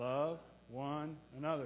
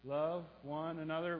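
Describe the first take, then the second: First: The phrase is spoken a little faster. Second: The phrase is spoken faster still. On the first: "A little faster now" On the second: "A little faster"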